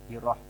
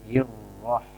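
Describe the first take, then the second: First: The r sound is short, not doubled. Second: The r sound is held long, doubled. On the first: The speaker calls it wrong. "Kadang ada yang membaca" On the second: The speaker calls it right. "tasdidkan sempurna"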